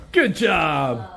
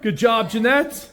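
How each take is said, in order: First: Said in the usual way. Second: Cheery praise. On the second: Real, not acted. Praising cleaner while filming.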